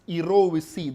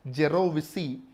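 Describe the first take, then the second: First: The word begins with a soft, vowel-like sound. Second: The word begins with a hard J consonant. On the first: The speaker calls it right. "actually the pronunciation is erovisi" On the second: The speaker calls it wrong. "though you read it as a gerovisi"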